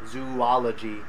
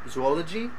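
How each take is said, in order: First: The first two vowels are two separate sounds. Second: The first two vowels run together as one. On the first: The speaker calls it right. "it should be these two separate sounds, ooh ah" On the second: The speaker calls it wrong. "the way that you pronounced that was more like zool- zoology"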